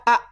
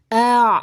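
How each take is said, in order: First: It is a short glottal stop sound. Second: It is a throat sound with slightly flowing voice. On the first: The speaker calls it wrong. "jangan dibaca a, nanti jadi hamzah" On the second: The speaker calls it right. "dialirkan sedikit suaranya"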